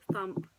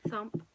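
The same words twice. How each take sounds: The two takes are said the same way.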